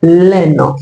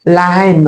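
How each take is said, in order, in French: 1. L'article est élidé et lié au nom. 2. L'article forme une syllabe séparée devant le nom. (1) "on ne dira pas laine" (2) "Il ne faut pas élider l'article devant ce mot"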